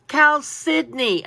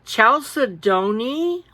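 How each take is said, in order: First: "Chalcedony." said slowly as kal-si-doh-nee, falling, each syllable clear; slow careful pronunciation. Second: "Chalcedony?" drawn out slowly, rising, a hard ch sound, unsure; puzzled first try. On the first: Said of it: "Say that slow". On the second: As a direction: sound out "Chalcedony?" like you've never seen the word. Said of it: "when I first saw it, I was like". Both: Retold or imitated.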